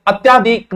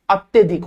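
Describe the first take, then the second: First: अत्याधिक with long aa after tya; wrong pronunciation. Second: अत्यधिक with short vowel after tya; correct pronunciation. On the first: Teacher warning against the mistake, mispronounced demo. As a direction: say अत्याधिक, stretching त्या. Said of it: "अत्याधिक नहीं होता". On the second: Teacher giving students the correct word, careful pronunciation. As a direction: say अत्यधिक, त्य kept short. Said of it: "अत्यधिक होता है". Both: Shown as a demonstration.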